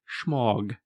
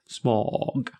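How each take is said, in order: First: The word begins with a sh sound. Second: The word begins with a plain s sound. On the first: "there's sort of a sh" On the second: "I still think pronunciation generally is going to be smog"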